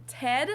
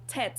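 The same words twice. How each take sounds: First: Said in the usual way. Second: "Ted" ending in a T, like "Tet"; German final T. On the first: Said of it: "Instead of the name Ted". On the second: Shown as a demonstration. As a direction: devoice the last D of "Ted" into T. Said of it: "Germans will say Ted".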